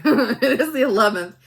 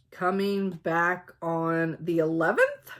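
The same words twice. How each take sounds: First: "eleventh" said with a falling, certain tune and a laugh; firm statement. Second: "eleventh" lifted up like a question; question-like rise. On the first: Shown as a demonstration. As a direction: correct herself loudly, landing down on "eleventh". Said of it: "like a question mark". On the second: Real, not acted. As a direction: end "coming back on the eleventh" on an unsure upward tune. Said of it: "I said that like a question mark".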